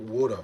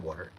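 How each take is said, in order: First: WATER as "wuh-duh" in New York accent. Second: Said in the usual way. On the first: Shown as a demonstration. Showing chat a New York "water", R dropped in New York accent. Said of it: "New York water". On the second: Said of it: "I said water".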